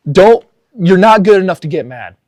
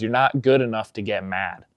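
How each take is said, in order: First: Louder, higher, hammering not; emphatic punchline. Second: Said in the usual way. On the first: Real, not acted. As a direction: land grandpa's line as the lesson. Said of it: "repeating grandpa's line as her message". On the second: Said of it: "he looks at you and he says".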